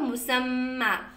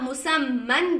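First: The word ends with a long a vowel. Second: The word ends with an n sound. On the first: The reading stops at this word. "आप रुक गए तो मुसम्मा" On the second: The reading continues without a stop. "मुसम्मन दिया हुआ है"

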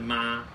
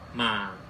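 First: The pitch stays high and level. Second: The pitch falls low and gently. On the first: "没有写的是妈，就跟一声一样" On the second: "有一个下降符号……跟三声很像"

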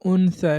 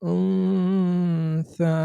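First: The n is pronounced clearly as a full n. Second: The n is hidden in a nasal hum. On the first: The speaker calls it wrong. "আমি কিন্তু উনসা এরকম বলিনি" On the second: The speaker calls it right. "যে জায়গা থেকে যা উচ্চারিত হতো সেখানে গিয়ে আমাদেরকে এই নুনটা উচ্চারণ করতে হবে"

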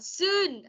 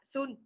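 First: The vowel is held long. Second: The vowel is cut short. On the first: The speaker calls it right. "mình đọc là soon" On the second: The speaker calls it wrong. "chứ không phải là soon"

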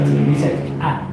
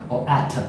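First: The word ends cleanly on t, no schwa. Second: An extra schwa vowel follows the final t. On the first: The speaker calls it right. "you miss off the schwa sound at the end" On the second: The speaker calls it wrong. "They're saying that. But you don't say that at"

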